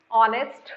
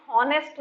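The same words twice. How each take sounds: First: ऑनेस्ट said as "onest", no h at the start; silent h. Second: हॉनेस्ट said with a clear h at the start, the wrong way; wrong h sound. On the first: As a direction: say ऑनेस्ट opening straight on the vowel. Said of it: "एक minute". (ऑनेस्ट को "ऑ" से बोलिए, ह के बिना) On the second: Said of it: "गलत कर दोगे". (हॉनेस्ट को ह लगाकर बोलिए, गलत तरीका) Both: Shown as a demonstration.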